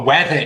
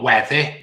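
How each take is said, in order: First: "weather" said plainly with an open "uh" ending; correcting word choice. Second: "weather" with the ending tightened toward "ih"; rejected version. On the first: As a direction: stress "weather" as the right one. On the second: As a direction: say "weather" as the one being ruled out. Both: Shown as a demonstration. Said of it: "not weather".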